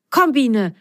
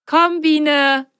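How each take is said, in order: First: Eager, raised call to a friend; excited call. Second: Higher, gleeful call to a friend; happy call. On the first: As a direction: call her over, a little excited. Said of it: "rief er aufgeregt". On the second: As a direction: call her along, delighted. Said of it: "freute sich Ben". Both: A narrator's reading.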